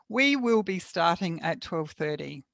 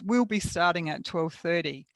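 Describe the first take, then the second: First: The first two words are said in full. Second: The first two words are contracted into one. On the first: "If we hadn't contracted those two words, it would sound like this" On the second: "what we had was"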